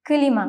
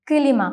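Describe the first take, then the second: No difference in how they are said.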